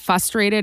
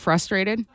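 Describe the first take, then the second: First: The r after the f is left out. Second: The r after the f is pronounced. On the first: The speaker calls it wrong. "always said frustrated instead of" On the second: The speaker calls it right. "It just omitted a letter"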